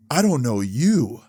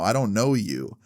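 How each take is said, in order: First: Slow, mildly out-of-it retelling; imitating intoxicated stranger. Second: Said in the usual way. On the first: Intruder answering the homeowner, imitated as slow and intoxicated. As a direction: say it slowly, like someone a bit wasted. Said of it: "he sounds kinda, like, fucked up". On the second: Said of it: "I was like".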